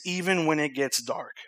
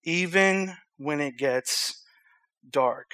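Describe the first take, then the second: First: Said in the usual way. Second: Slow and softer, pausing before the last word; slow solemn repeat. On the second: Real, not acted. Preacher repeating tonight's message title, slowly and solemnly.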